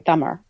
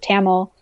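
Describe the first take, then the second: First: The word ends with a sound foreign to English. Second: The word ends with an English L sound. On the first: This is the native form of the name. The speaker calls it right. "there's a sound at the end of the word that is not found in the English language" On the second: This is the anglicized form of the name. The speaker calls it wrong. "they made it an L and then that turned into Tamil"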